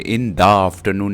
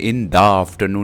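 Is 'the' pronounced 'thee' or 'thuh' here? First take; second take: thuh; thuh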